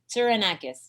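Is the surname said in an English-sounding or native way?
English-sounding. The name is said with English sounds. "I make it sound English"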